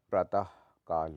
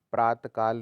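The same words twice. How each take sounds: First: प्रातः ending in a breathy ah; sounded visarga. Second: प्रातः काल as praat-kaal, loud; no visarga. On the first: Teacher corrects it, प्रातः with sounded visarga. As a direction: split praatah, kaal in प्रातः काल. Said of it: "होता है". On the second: Teacher shows the error, प्रातः without visarga. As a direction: clip off the ah of प्रातः. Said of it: "नहीं होता". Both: Shown as a demonstration.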